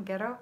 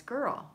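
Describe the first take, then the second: First: Put-on Scottish accent. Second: Said in the usual way. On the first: Host showing viewers Joanne's Scottish "girl" in a mock Scottish accent. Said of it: "say girl with a Scottish accent". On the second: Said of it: "She's saying girl".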